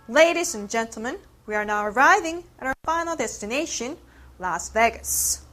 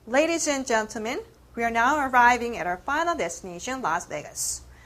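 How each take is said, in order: First: The key words are stressed strongly and high. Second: The key words get only slight stress. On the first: The speaker calls it right. "강조해서 다시 한번 읽어보겠습니다" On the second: The speaker calls it wrong. "강세를 조금만 넣어서 읽었어요"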